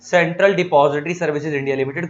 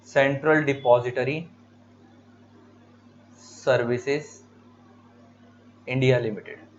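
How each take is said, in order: First: Said in the usual way. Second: Slow dictation with long pauses between words. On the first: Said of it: "CDSL की full form ये रही". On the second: Shown as a demonstration. Teacher dictating an exam full form to students, slow with pauses. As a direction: spell out the full form word by word for notes. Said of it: "ये full forms याद रखनी जरूरी है".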